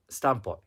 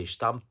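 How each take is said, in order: First: "Stamppot" with a plain s, stressed on the first part; "Stamppot" said the Dutch way, s not sh; Dutch pronunciation. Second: "Stamppot" said with sh, German style: shtamp-pot; "Stamppot" with a German sh at the start; German pronunciation. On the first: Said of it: "you know what I'm talking about". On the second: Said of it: "It's almost pronounced ... it's like sh". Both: Shown as a demonstration.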